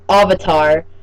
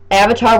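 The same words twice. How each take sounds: First: Avatar is said with an altered, accented pronunciation. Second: Avatar is said the familiar, usual way. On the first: The speaker calls it wrong. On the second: The speaker calls it right.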